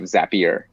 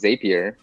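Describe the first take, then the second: First: It rhymes with happier. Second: It does not rhyme with happier. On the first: The speaker calls it right. "from day one, they were um, kind of Zapier" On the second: The speaker calls it wrong. "almost everybody says Zapier"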